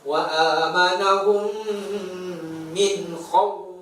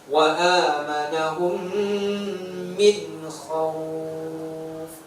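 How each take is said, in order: First: The final diphthong is said with heavy pressure. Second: The final diphthong is said softly, without pressure. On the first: The speaker calls it wrong. "Tidak boleh kita tekan" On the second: The speaker calls it right. "tidak boleh juga ditekan di situ"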